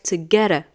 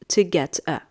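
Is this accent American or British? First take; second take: American; British. First: It is said in an American accent. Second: It is said in a British accent. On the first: "in the American accent, we say" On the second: "if it is like the British uh, sound"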